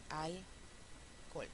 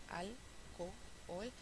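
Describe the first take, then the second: First: "alcohol" said as alcol, the two o's merged into one; fused alcohol. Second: "alcohol" slowly, saying a-co-hol with two separate o's; alcohol with both o's. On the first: Teacher to class, "alcohol" fused to one o to save a syllable. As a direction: run the o's of "alcohol" together into a single vowel. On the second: Teacher to class, "alcohol" slowly with two o's. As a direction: drag out "alcohol" so both o sounds are heard. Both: Shown as a demonstration. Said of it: "podemos decir también alcohol".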